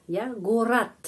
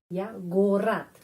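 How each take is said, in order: Both takes have the same delivery.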